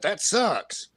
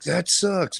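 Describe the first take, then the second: First: It sounds blaming and accusatory. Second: It sounds warm and sympathetic. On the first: The listener is being blamed. "it can be accusatory as well" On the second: The listener is being comforted. "it's meant as a, a show of sympathy"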